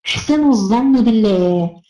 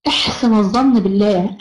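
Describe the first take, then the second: First: Slow, drawn-out "احسنوا الظن بالله"; slow emphasis. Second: Slow, stressed الظن in "احسن الظن بالله"; slow emphasis. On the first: (ببطء ومد في "احسنوا الظن بالله") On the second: (ببطء مع الضغط على كلمة الظن) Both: Shown as a demonstration.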